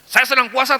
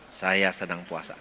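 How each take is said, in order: First: The voice is high, raised and sharp. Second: The voice is low, soft and calm. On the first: The speaker calls it wrong. "itu nada tinggi" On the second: The speaker calls it right. "Katakannya dengan nada rendah"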